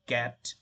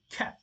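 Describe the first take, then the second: First: Cat with the k unaspirated, like "gat"; cat starting on a dull, puffless k; wrong soft k. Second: Cat with a strongly aspirated k; cat with a crisp, breath-released k; correct hard k. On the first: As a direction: say cat with a g-like first sound. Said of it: "That's going to be cat". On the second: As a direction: push a puff of air into the k of cat. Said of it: "That's going to be". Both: Shown as a demonstration.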